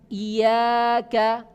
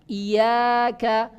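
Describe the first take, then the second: First: The y sound is short and single. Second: The same.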